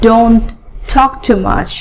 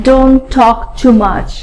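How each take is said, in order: Both takes have the same delivery.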